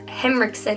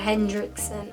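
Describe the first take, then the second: First: The name is said without a 'd' sound. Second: The name is said with a 'd' sound. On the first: The speaker calls it right. "it's Henriksen" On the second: The speaker calls it wrong. "not Hendrickson"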